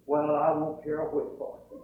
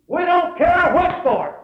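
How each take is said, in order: First: Said in the usual way. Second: Loud, high preacher's shout; defiant proclamation. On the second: Real, not acted. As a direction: belt it out defiantly to the congregation. Preacher proclaims the boy's answer.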